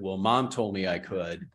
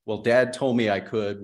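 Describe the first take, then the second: First: Put-on "Mom" leaned on, like a whining kid; stress on Mom. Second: Put-on "Dad" leaned on, like a whining kid; stress on Dad. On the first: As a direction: hit "Mom" as the other parent. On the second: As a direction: hit "Dad" as the one who said yes. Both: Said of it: "and a lot of this feels like a".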